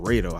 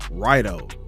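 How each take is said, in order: First: The first vowel sounds like 'ah'. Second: The first vowel sounds like 'eye'. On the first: The speaker calls it wrong. "instead of Rado, how I've been saying it" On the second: The speaker calls it right. "It's called Raido"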